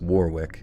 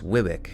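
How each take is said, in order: First: The middle 'w' is pronounced, like it's spelled. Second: The middle 'w' is silent, like 'Worrick'. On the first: The speaker calls it wrong. "You think it would be pronounced Warwick" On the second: The speaker calls it right. "It's actually pronounced Wiwick"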